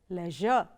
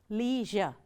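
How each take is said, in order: First: It is said with a British pronunciation. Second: It is said with an American pronunciation. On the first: "The first one is the British way of pronouncing" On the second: "The second one is the American way of pronouncing it"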